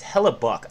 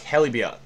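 First: The name has no extra y sound inside. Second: The name has an extra y sound inside. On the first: The speaker calls it right. "It's Hellybuck" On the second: The speaker calls it wrong. "I don't know why I always mispronounce it. There's an extra Y in there"

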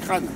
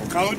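First: The name is said as one syllable, like crâne. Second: The name is said with two syllables. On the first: The speaker calls it right. "il faut dire Crâne" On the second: The speaker calls it wrong. "il ne faut pas dire Craon"

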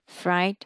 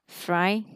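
Both takes have the same delivery.

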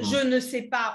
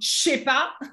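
First: The word 'ne' is pronounced in full. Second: The word 'ne' is dropped in quick speech. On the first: "au lieu de dire je ne sais pas" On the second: "on dit je sais pas"

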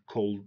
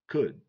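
First: The L is pronounced in the word. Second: The L is silent in the word. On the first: The speaker calls it wrong. "We don't say cold" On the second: The speaker calls it right. "It's could"

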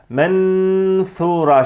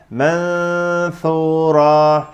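First: The tongue closes fully on a clear n. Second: The n is a nasal hum without tongue contact. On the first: The speaker calls it wrong. "nun harfine dil bastırılıp sonra s harfine gidilmiyor" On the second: The speaker calls it right. "dil s harfini söylemeye hazır bekletiliyor"

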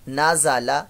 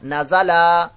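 First: The final syllable is kept short. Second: The final syllable is stretched out long. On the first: The speaker calls it right. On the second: The speaker calls it wrong.

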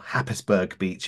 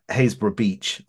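First: The name is said as Happisburg. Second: The name is said as Haysborough. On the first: The speaker calls it wrong. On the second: The speaker calls it right.

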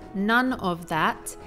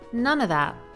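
First: Each word is said separately and fully. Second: The words run together with a reduced of. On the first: "Instead of saying it word by word" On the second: "he says it as if it was one word"

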